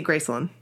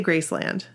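First: Graceland with LAND reduced to "lund"; Memphis pronunciation. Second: Graceland with a clear LAND ending; full-vowel pronunciation. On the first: Showing how they say it in Memphis, Graceland as GRACE-lund. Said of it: "but they say Graceland". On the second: Showing how we say it, Graceland with a full LAND. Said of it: "so we say Graceland". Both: Shown as a demonstration.

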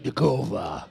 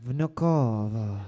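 First: Low, slow Russian Vnukovo; mock Russian take on Vnukovo; Russian accent. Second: Low, slow Russian-accented Vnukovo; a bad Russian accent on Vnukovo; mock Russian accent. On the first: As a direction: growl out Vnukovo like a Russian tough guy. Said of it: "You gotta be like". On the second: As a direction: say Vnukovo like a deep-voiced Russian. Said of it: "that was Spanish again". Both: Shown as a demonstration.

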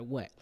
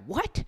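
First: Said in the usual way. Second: High rising shocked squeak; shocked what. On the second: Retold or imitated. Mom hearing about the tattoo, a high shocked squeak. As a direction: jump up in pitch in disbelief.

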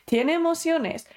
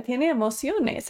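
First: "Tiene emociones" repeated higher with "emociones" punched and falling; emphatic repeat landing hard on "emociones"; stress on EMOCIONES. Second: Said in the usual way. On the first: Shown as a demonstration. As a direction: drive home "emociones".

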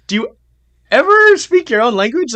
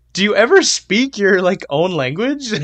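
First: Much higher, louder, on ever; exasperated mock question. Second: Higher, louder bewildered mock question; incredulous mock question. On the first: Repeats his question to English-speaking Scandinavians, exasperated and louder. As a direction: throw up your hands in disbelief. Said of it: "I'm like". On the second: Imagines asking fluent Europeans about their language, incredulous. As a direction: ask it in playful disbelief. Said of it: "I'm just like".

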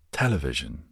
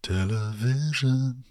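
First: Said in the usual way. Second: Drawn-out American "Television" with a high pitch; American pronunciation. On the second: Shown as a demonstration. Asking American viewers how they say it, slow American take. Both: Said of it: "Do you say television or television?".

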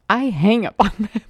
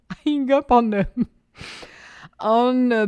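First: Said in the usual way. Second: Repeating it higher, through a laugh. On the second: Retold or imitated. Amused at having hung up on the boss, laughing. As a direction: laugh at your own blunder as you say it.

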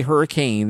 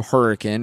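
First: "hurricane" with a full -cane ending; common pronunciation. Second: "hurricane" said HER-uh-kin, short ending; local pronunciation. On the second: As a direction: end "hurricane" on a quick -kin. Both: Shown as a demonstration. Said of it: "they will quickly correct you".

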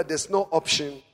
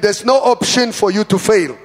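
First: Said in the usual way. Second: Loud, forceful declaration; booming pulpit insistence; like you mean it. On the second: Shown as a demonstration. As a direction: proclaim it with full conviction. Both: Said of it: "Say it like you mean it".

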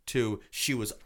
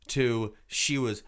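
The two takes are said the same way.

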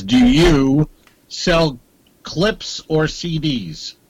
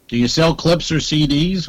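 First: Slow reading. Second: Said in the usual way. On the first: Shown as a demonstration. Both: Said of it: "It just says".

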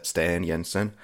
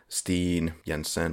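First: Steen with an open vowel, "stan YEN-sen"; second attempt at name. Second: Steen with a long EE, "steen YEN-sen"; butchered name. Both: Shown as a demonstration. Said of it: "butchering that".

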